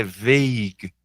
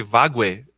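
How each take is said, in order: First: "vague" as one slow syllable, VEYG; correct English pronunciation. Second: "vague" read as written, VAH-gweh; spelling pronunciation. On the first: Teacher correcting the spelling trap, "vague" said as VEYG. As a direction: say "vague" to rhyme with plague. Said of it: "Mas é vague". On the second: Teacher showing the odd spelling, "vague" said as VAH-gweh. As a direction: say "vague" in two syllables, Portuguese letter sounds. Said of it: "a gente escreve vague". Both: Shown as a demonstration.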